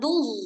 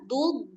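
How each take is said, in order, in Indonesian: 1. Konsonan akhirnya mirip desis Z. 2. Konsonan akhirnya mirip bunyi hambat D. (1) "jangan duz. Duz jadinya dha" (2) "Tetap dud"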